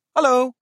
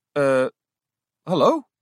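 First: Bright, cheerful hello; friendly call. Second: Unsure, questioning hello; falter, checking if she was heard; hesitant. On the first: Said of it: "riep vriendelijk". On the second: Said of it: "herhaalde ze aarzelend". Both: A narrator's reading.

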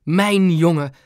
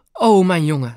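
First: Louder repeat, weight on Mijn; dad repeating his cry of relief; exclaiming. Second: Louder relieved cry; dad crying out as his son runs in; exclaiming. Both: A narrator's reading. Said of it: "riep hij uit".

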